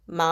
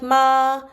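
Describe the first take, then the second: First: It is said lightly with no set pitch. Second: It is held on a high, level pitch. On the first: "the fifth tone, which is non-existent, is just saying the word" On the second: "the first tone is gonna be like this, la da da da da"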